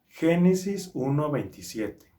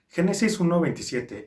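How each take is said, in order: First: It is said at a normal speed. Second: It is said very fast.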